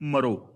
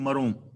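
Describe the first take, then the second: First: The final vowel is oral, without nasalization. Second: The final vowel is nasalized. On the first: It is a command about the future. The speaker calls it wrong. "ਮੈਂ ਪਹਿਲਾਂ ਗਲਤ ਬੋਲ ਗਿਆ" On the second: The speaker says I will die. The speaker calls it right. "ਮਰੋਂ ਪੜਨਾ ਬਿੰਦੀ ਲਗਾ ਕੇ"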